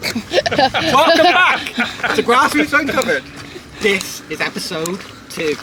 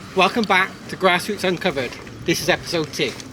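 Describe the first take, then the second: First: It is said with lots of enthusiasm. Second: It is said with little enthusiasm.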